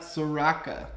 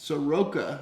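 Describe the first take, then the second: First: The second vowel sounds like A. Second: The second vowel sounds like O. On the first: The speaker calls it wrong. "I always pronounce it wrong" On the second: The speaker calls it right. "It's Soroka, It's an O, not an A"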